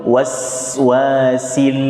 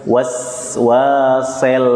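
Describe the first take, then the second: First: Waswasil slow with clear i; correct sil. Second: Waswasel slow with e for i; wrong e. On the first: Teacher modelling Waswasil. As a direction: keep the i in Waswasil. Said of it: "Jangan ke e ya". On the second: Teacher showing wrong Waswasel. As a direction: say sel not sil in Waswasel. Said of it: "Bukan sel". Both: Shown as a demonstration.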